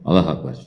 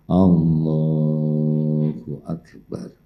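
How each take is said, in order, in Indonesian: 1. Diucapkan cepat, dengan suku kata digabung-gabung. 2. Diucapkan perlahan dan tenang, setiap suku kata terdengar penuh. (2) "Biasakan tumanina"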